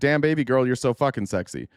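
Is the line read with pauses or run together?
run together. It is read run together without a pause.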